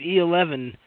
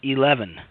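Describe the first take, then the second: First: The name starts with an extra 'E' sound. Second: The name starts directly without an extra sound. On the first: The speaker calls it wrong. "I've been calling you E eleven" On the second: The speaker calls it right. "It's it's eleven"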